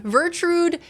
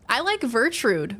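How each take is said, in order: First: "Vertrude" sung out high; playful. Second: Said in the usual way. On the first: Real, not acted. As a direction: relish the silly name "Vertrude".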